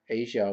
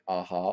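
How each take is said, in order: First: The middle consonant is a zh sound. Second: The middle consonant is an H sound. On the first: "like Asia, A S I A, but a slight twist" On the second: "I've heard the J pronounced as an H"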